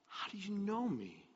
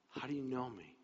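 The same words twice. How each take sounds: First: High, soft, wondering question; hushed amazement. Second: Soft question, pitch settled; quiet wonder. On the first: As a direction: ask it softly in astonishment, pitch lifted. Nathanael amazed at Jesus knowing him. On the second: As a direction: ask it softly, letting it sink in. Same question repeated more quietly. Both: Acted.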